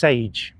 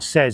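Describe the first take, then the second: First: The name sounds like the word 'sage'. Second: The name sounds like the word 'says'. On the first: The speaker calls it right. "Says is pronounced sage, apparently" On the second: The speaker calls it wrong. "it's not says"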